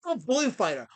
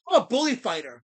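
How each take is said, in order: First: Said in the usual way. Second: Louder, firm self-proclaimed bully fighter; louder declaration. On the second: Real, not acted. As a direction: announce it loudly, standing tall.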